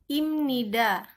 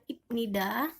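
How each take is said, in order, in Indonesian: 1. Konsonan sebelum nida berbunyi seperti m. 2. Konsonan sebelum nida berbunyi seperti p. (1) "jadi ini dibacanya imnida" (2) "bukan ipnida"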